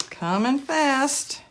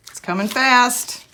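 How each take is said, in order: First: Slow, drawn-out "Coming fast."; slow echo. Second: Said in the usual way. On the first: Real, not acted. Slowed echo of own line.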